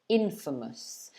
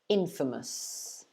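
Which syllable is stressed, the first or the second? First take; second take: first; first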